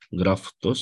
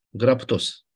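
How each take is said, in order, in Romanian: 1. Înainte de t vine sunetul f. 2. Înainte de t vine sunetul p. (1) "nu F, T" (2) "P, graptos"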